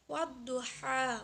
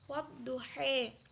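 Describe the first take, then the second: First: The final vowel is an open 'a' sound. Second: The final vowel is tilted toward an 'e' sound. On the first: "bacaannya wadduha" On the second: "menjadi wadduhe"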